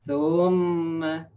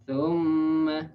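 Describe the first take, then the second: The two takes are said the same way.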